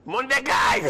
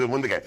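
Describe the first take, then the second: First: High yelled "מונדקאי" with falling end; "מונדקאי" shouted across the field, dropping at the end; coach yelling name. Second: Said in the usual way. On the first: Retold or imitated. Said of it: "צועק לו המאמן".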